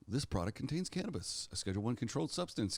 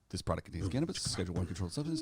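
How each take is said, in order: First: It is read at a normal pace. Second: It is read very fast, rattled off. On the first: "Let me try that again" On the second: "let me try and do the Matchbox Cars voice"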